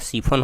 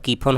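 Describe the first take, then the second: First: The word begins with an s sound. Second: The word begins with a k sound. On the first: "स उच्चारण कीजिएगा तो सीफोन हो जाएगा" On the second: "क उच्चारण कीजिएगा तो कीफोन हो जाएगा"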